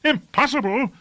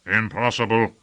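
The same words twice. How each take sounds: First: High-pitched outraged echo; high, indignant questioning cry; incredulous cry. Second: Said in the usual way. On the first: A narrator's reading. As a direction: throw the word back in disbelief, pitch way up. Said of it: "cried Lord Fayed".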